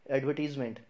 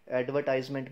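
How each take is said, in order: First: "एडवर्टीजमेंट" with TEEZ, silent R; long "ee", falling end on "एडवर्टीजमेंट"; correct pronunciation. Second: "एडवर्टाइजमेंट" as ad-vuh-TIZE-ment; "tize" vowel in "एडवर्टाइजमेंट"; wrong, silent R. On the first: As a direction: say "एडवर्टीजमेंट" as ad-vuh-TEEZ-ment. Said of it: "इसकी सही pronunciation है". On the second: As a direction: drop the R but keep "eye" in "एडवर्टाइजमेंट". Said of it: "भी नहीं बोलते". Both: Shown as a demonstration.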